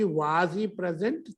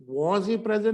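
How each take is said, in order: First: 'was he present' with long open 'vaaz'; question 'was'. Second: 'was he present' with rounded 'voz', falling; wrong short 'was'. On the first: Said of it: "मैं इसी को आगे करूं कि". (सवाल वाला लंबा 'वाज') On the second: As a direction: demonstrate the mistaken 'voz' in a question. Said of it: "नहीं होगा". (गलत छोटा 'वॉज') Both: Shown as a demonstration.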